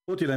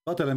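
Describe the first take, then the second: First: The first vowel is not a short a. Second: The first vowel is a short a. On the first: They were the ones killed. "قتل mean they got killed" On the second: They did the killing. "with the fatha, قتل, which means they killed"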